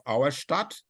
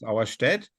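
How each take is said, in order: First: The second syllable has an 'ah' vowel. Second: The second syllable has an 'eh' vowel. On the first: The speaker calls it wrong. "which doesn't exist" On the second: The speaker calls it right. "It's Auerstedt"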